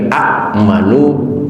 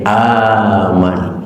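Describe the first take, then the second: First: It starts with two glottal stops and a short vowel. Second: It starts with one lengthened, drawn-out vowel. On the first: The speaker calls it wrong. "double huruf hamzah di awal" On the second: The speaker calls it right. "dijadikan mad"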